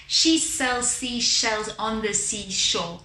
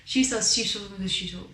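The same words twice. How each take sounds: First: "seashells on the seashore" slowly overpronounced, each consonant distinct; over-the-top pronunciation. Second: "seashells" and "seashore" slurred, s sliding into sh; underpronounced. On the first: Teacher gets muscles working, overpronouncing "seashells". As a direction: exaggerate every sound in "She sells seashells", slowly. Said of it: "let's go really over the top".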